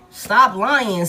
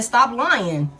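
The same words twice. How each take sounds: First: Louder repeat. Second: Said in the usual way. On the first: Acted. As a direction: stop lying, louder and firmer. Repeats the order, second time harder.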